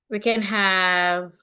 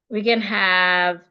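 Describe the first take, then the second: No difference in how they are said.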